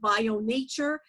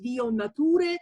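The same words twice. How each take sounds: First: The name is said with an English pronunciation. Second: The name is said with a non-English pronunciation. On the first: This is how English speakers would say it. "in English, I guess they would pronounce it" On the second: This is how the name is actually pronounced. "it's actually called, pronounced"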